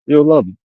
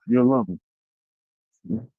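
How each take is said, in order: First: Laughing. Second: Mock sweet drawl. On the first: Real, not acted. Repeats it laughing. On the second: Mock sweet promise, drawn out.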